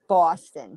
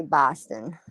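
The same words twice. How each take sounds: First: "Boston" with a rounded AW vowel, "Bawston"; others' pronunciation of Boston. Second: "Boston" with an open AH vowel, "Bahston"; local pronunciation of Boston. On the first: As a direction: say "Boston" as BAW-stun. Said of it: "a lot of people say Boston". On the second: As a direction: say "Boston" as BAH-stun, the local way. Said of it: "And we say Boston". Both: Shown as a demonstration.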